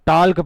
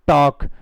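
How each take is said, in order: First: The L sound is pronounced in the word. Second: The L sound is silent in the word. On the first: The speaker calls it wrong. "कोई टाल्क पढ़ता है" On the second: The speaker calls it right. "इसमें भी एल silent रहता है"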